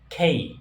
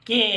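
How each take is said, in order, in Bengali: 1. অক্ষরটি 'kay' হিসেবে উচ্চারিত হয়, একটু গ্লাইড সহ। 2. অক্ষরটি ছোট 'keh' হিসেবে উচ্চারিত হয়। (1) "এটা হবে খেই" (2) "আমরা বাচ্চারা স্কুলে শিখাই কে"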